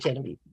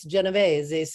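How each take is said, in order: First: The name is pronounced the American way. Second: The name is pronounced the Italian way. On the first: This is how the name's owner says it himself. "but that's how he says it" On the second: This is how Italians say the name. "If you're Italian, it's Genovese"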